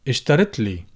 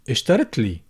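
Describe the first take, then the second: Both takes have the same delivery.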